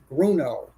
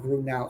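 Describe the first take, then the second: First: The name ends with a sound rhyming with 'no'. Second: The name ends with a sound rhyming with 'now'. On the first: The speaker calls it right. "It's Bruno. That's it. Rhymes with Bruno" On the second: The speaker calls it wrong. "My boss of twenty years still does not pronounce it correctly. It's he keeps saying Grunow"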